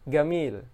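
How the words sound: The word begins with a hard g sound. This is the everyday Egyptian form. "itu dibaca gamil"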